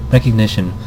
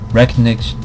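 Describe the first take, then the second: No difference in how they are said.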